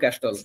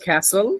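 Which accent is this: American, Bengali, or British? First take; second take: Bengali; American. First: The t sound is pronounced in the middle. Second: The vowel is a flat 'a'; t silent. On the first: "বাঙালিরা বলে ক্যাস্টল" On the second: "আমেরিকানরা বলে ক্যাসল"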